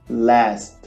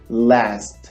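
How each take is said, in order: No difference in how they are said.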